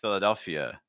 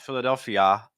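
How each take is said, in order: First: The word ends in a weak 'uh' vowel. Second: The word ends in a full 'ah' vowel. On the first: The speaker calls it right. "It's Philadelphia" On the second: The speaker calls it wrong. "So it's not Philadelphia"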